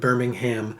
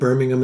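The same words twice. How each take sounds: First: It is pronounced the American way. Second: It is pronounced the British way. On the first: "instead of" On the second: "we do live in the U K, so we got used to saying Birmingham"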